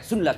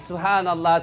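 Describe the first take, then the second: First: It is rushed and clipped into few syllables. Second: It is said slowly with every syllable clear. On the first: The words become unclear. The speaker calls it wrong. "Zikirnya terlalu cepat" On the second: The words are clear. The speaker calls it right. "Maka perbaiki"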